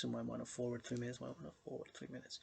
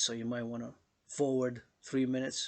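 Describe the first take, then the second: First: Quick, much softer echo that fades away; fading echo. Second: Said in the usual way. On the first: Acted. Echoing the skip advice to viewers, fast and fading. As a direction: let the line die out like an echo.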